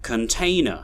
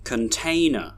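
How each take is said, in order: First: The unstressed syllables are reduced to schwa. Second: The same.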